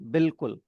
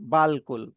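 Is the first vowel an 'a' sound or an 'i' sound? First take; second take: i; a. First: The first syllable has a short 'i' vowel. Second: The first syllable has a long 'a' vowel. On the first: It is how the word is actually read. The speaker calls it right. "अलिफ silent हो गया और उसकी जगह पे जेर" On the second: It follows the written spelling letter by letter. The speaker calls it wrong. "बे, फिर अल, और फिर कुल"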